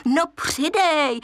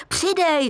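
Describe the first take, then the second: First: High, slow coaxing "přidej". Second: "přidej" higher still, with a laughing edge; pushing harder. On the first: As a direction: draw out "No přidej" higher. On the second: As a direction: urge "přidej" even higher. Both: Shown as a demonstration.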